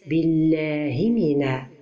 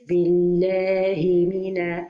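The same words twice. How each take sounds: First: The vowels are rushed and cut short. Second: The vowels are given their full time. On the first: The speaker calls it wrong. "So don't say... This is a mistake" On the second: The speaker calls it right. "The right pronunciation is"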